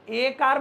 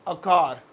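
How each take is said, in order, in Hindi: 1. लेख 'a' को अक्षर के पूरे नाम 'ay' की तरह बोला जाता है। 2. लेख 'a' को छोटे, हल्के 'uh' की तरह बोला जाता है। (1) "तो इसे ए कार मत बोलिएगा" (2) "इसे बोलेंगे अ"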